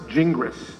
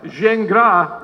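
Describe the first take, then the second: First: The name is pronounced with English sounds. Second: The name is pronounced with French sounds. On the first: This is the form used in English-speaking countries. "in English-speaking countries, it's best pronounced Gingras" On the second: This is the original form of the name. "the correct French pronunciation"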